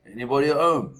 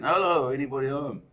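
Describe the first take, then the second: First: Loud high call into the empty shop; shouting out. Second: Loud, higher call of hello into the shop; shouting again. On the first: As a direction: call out to whoever is in the back. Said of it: "my dad shouts out". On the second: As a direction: call out a second time, still unanswered. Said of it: "My dad shouts again". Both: Retold or imitated.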